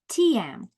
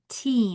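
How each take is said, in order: First: It is split into two syllables, long then short. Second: It is one syllable with one long vowel. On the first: The speaker calls it wrong. "If we divided between the vowel team, then that would make this long and that would make this short" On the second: The speaker calls it right. "two vowels are walking together and making a special sound"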